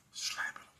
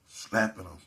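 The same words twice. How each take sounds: First: "slapping him" said in a breathy unvoiced whisper, trailing off. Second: Said in the usual way. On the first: Shown as a demonstration.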